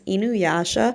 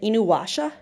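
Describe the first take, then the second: First: The third syllable begins with a y sound. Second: The third syllable begins with a w sound. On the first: The speaker calls it right. "ya, Yasha, not wa" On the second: The speaker calls it wrong. "you still get people that pronounce it Inuwasha"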